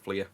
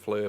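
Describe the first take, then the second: First: The vowel sounds like the one in 'ear'. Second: The vowel sounds like the one in 'fur'. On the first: This is the company's real name. "they're obviously called Fleer" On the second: This is the speaker's personal habit. "I call them Fleur, but that's just how I've always pronounced it"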